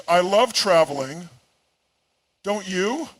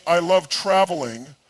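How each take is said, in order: First: "I love traveling" said lightly, then "Don't you?" lifting into a question; pleading for agreement, pitch climbing on "you"; seeking agreement. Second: Said in the usual way. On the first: Shown as a demonstration. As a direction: tack a rising "Don't you?" onto the statement after a pause. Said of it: "phrase their sentences as questions". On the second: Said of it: "shift turns a statement into a plea".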